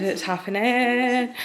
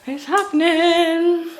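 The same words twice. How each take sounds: First: Said in the usual way. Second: High, drawn-out, playful excitement; hyped-up announcement. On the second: Pretend. Telling viewers about the hair dyeing, playfully excited. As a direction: stretch it out in a much higher voice.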